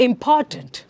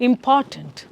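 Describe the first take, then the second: No difference in how they are said.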